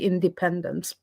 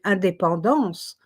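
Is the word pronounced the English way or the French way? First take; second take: English; French. First: The word is pronounced the English way. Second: The word is pronounced the French way. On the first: "I couldn't pronounce it in the English way until one day" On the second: "in French, you say indépendance"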